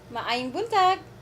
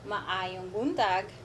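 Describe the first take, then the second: First: It is said at natural conversational speed. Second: It is said slowly, word by word.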